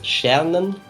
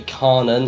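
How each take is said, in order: First: The word begins with an SH-like sound. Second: The word begins with a hard K sound. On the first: The speaker calls it right. "that K becomes like an S H somehow" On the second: The speaker calls it wrong. "They can't just say Karnen"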